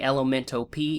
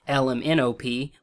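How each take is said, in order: First: The letters are run together like one word. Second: Each letter is said separately and clearly. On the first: The speaker calls it wrong. "stop saying Elemento P" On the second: The speaker calls it right. "which is how it's supposed to be"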